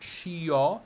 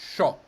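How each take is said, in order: First: The i is sounded as a vowel. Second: The i is silent; just sh plus o. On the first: The speaker calls it wrong. "S C I O is not scio" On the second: The speaker calls it right. "it's just sho"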